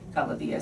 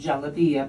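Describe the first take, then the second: First: The word begins with a hard G sound. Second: The word begins with a soft J sound. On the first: "becomes a hard G" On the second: "the soft G, like it, as in jalabia"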